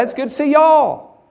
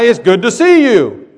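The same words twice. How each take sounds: First: "y'all" stressed and pitched high as the right word. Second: "you" hit hard as the wrong word; stress on you. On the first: Pastor giving the Southern greeting with "y'all" stressed. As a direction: land on "y'all" high and proud. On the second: Pastor showing the wrong greeting with "you" stressed. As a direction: say "you" as the word he would not use. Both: Shown as a demonstration. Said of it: "I don't say that".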